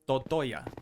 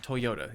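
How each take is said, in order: First: The syllables are said in the order to-toy-ya. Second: The syllables are said in the order toy-yo-ta. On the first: The speaker calls it wrong. "but I'm never serious. I would recommend Totoya" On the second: The speaker calls it right. "Toyota is the proper pronunciation on that"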